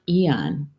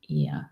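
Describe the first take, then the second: First: The word ends with an audible n sound. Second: The word ends without any n sound. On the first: The speaker calls it wrong. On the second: The speaker calls it right.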